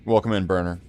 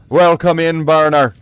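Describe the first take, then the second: First: It is said in the speaker's ordinary accent. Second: It is said with an Irish accent.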